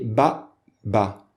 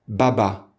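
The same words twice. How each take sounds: First: A glottal catch separates the two syllables. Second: The two syllables run together without a catch. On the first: The speaker calls it right. "on va prononcer Ba-ba" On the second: The speaker calls it wrong. "On ne dit pas Baba"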